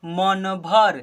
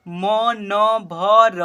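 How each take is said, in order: First: "मन भर" joined as two syllables; blended into one word. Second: "मन भर" as "म, न, भ, र", slow and loud; spelled letter by letter. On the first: Teacher answering what will we read, blended. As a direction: run "मन भर" together, closing on र. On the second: Teacher starting four-letter words, spelled out. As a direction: stretch each letter of "मन भर" separately. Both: Shown as a demonstration. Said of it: "क्या पढ़ेंगे?".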